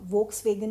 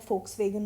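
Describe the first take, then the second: First: The word begins with a V sound. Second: The word begins with an F sound. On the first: The speaker calls it wrong. "वोक्स वेगन नहीं होता है" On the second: The speaker calls it right. "फोक्स वेगन होता है"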